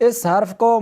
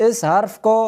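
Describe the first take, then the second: Both takes have the same delivery.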